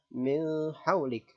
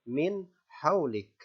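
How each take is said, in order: First: The n sound is muffled and indistinct. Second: The n sound is clear and distinct. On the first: The speaker calls it wrong. "Jangan dibaca samar" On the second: The speaker calls it right. "nun dibaca jelas"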